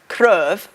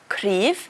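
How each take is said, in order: First: The vowel sounds like the 'e' sound. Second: The vowel sounds like the 'i' sound. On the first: The speaker calls it wrong. "we don't say cryf" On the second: The speaker calls it right. "which is an I sound again"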